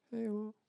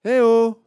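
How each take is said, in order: First: High, soft faraway reply; the call fading back as an echo; faint distant echo. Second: Put-on high, loud child's call; loud high hey there. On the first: Acted. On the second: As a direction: call across the valley like a little girl. Girl calls out in mountains.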